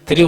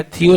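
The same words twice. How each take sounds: First: "थ्रियो" with an R after the TH; corrected reading. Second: THIO without the R sound; mistaken reading. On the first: Teacher correcting a term for students, corrected reading. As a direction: say "थ्रियो", sounding the R. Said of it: "थ्रियो होता है". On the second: Teacher showing students the misread term, mistaken reading. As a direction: say "थियो" with no R after TH. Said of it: "थियो नहीं होता है". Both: Shown as a demonstration.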